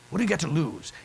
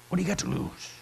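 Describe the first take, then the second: First: Said in the usual way. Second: Whispered. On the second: Shown as a demonstration. Preacher whispers the question to the congregation. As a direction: whisper got to lose softly.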